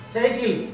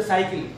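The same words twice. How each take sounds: First: "Cycle" with an ay vowel up front; A-glide in "Cycle". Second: Counter-example "cycle", vowel as in "eye"; "cycle" with an open ah-ee glide; wrong "cycle". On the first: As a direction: say "Cycle" as "say-kil". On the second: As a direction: say "cycle" as "sigh-kil". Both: Shown as a demonstration. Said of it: "Don't say cycle".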